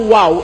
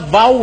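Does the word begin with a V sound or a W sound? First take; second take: W sound; V sound. First: The word begins with a W sound. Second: The word begins with a V sound. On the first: This is how the English spelling suggests it. "Imbis na wow" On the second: This is how Hebrew speakers say it. "ang pronunciation ng Hebrews, vow"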